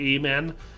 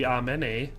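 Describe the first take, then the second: First: It starts with a long A vowel sound. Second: It is said in a mock Latin accent. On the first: "here in the Midwest, we have the long A, so usually we say amen" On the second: "the funny accent would be the one from Men in Tights where they do it in the New Latin"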